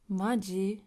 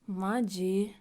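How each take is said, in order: First: It is said in an annoyed tone. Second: The same.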